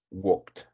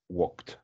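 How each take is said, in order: Both takes have the same delivery.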